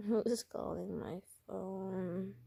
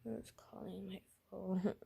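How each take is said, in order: First: Slow, softer feigned sick voice; Robin. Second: Soft, weary sick-patient voice; Robin. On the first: Sick character answering the phone, slow feeble voice. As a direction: drag it out weakly, as if ill. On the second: Sick character answering the phone, soft groggy voice. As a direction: say it quietly and weakly, as if ill. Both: Acted. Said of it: "this is Robin talking right now".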